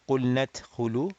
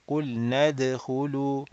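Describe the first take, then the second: First: The dal is voiceless, like a t sound. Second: The dal is voiced, with a clear d sound. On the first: The speaker calls it wrong. "not qulnat khulu" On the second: The speaker calls it right. "but qulnad khulu"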